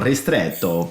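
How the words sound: The word is pronounced the Italian way. "if you want to go Italian, you go ristretto"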